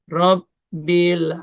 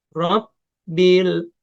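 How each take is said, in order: The two takes are said the same way.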